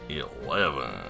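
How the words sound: It is said in an American accent.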